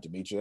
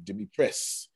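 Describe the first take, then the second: First: "Demetrius" said de-MEE-tree-us, with the -us ending; wrong pronunciation. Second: "Demetrius" said de-MEE-tress, ending -tress; corrected pronunciation. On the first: Host correcting himself on a student's name, first saying it the wrong way. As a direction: say "Demetrius" the usual way, ending in -ius. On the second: Host correcting himself to get the student's name right. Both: Shown as a demonstration. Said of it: "I mean, Demetrius".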